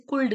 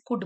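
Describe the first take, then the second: First: "कुल्ड" with the l wrongly pronounced; silent L sounded. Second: "कुड" said like "good", with no l; silent L. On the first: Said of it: "हम इसे कुल्ड नहीं बोलते". ("कुल्ड" में ल की आवाज़ निकालकर) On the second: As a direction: drop the l in "कुड". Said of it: "हम इसे कुड बोलते हैं". ("कुड" में ल को साइलेंट रखकर) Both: Shown as a demonstration.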